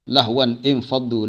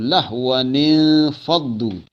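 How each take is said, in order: First: Lahwan ends in n, then a separate infaddu. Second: A linking 'ni' joins lahwan to faddu. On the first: The speaker calls it wrong. "Tak boleh kita baca tijaratan aw lahwan infaddu. Itu salah tu" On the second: The speaker calls it right. "kita hidupkan balik nun itu dengan letak baris bawah"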